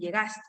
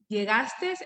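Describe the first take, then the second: First: The word ends without an added s sound. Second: The word ends with an added s sound. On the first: The speaker calls it right. "en lugar de llegaste" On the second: The speaker calls it wrong. "pronunciar la S al final de los verbos en segunda persona"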